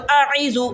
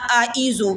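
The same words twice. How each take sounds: First: اعیذو with both first sounds squeezed in mid-throat; both as ain. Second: اعیذو with ain flattened into hamza; both as hamza. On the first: Teacher showing the mistake, اعیذو with both sounds ain. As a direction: turn the hamza of اعیذو into ain too. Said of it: "دونوں عین لگیں". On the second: Teacher showing the mistake, اعیذو with both sounds hamza. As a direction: say اعیذو with two glottal onsets, no throaty ain. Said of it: "کہ دونوں حمزہ لگیں". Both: Shown as a demonstration.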